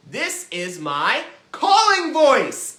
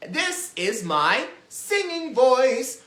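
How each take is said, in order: First: Loud, high, slow call; big drawn-out holler. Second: Loud, slow sung line; higher, sustained singing demonstration. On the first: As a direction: call it out at full volume. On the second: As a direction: sing it out with held notes. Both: Shown as a demonstration.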